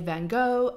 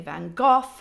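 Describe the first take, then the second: First: It is said in an American accent. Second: It is said in a British accent.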